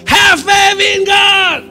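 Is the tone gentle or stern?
stern. It is said sternly and impatiently.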